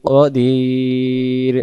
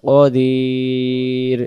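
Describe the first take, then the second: Both takes have the same delivery.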